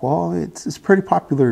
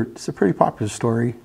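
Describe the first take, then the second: First: Light, higher grandmother voice, lightly voiced; a hint of a gentle grandmother; grandmother's voice. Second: Said in the usual way.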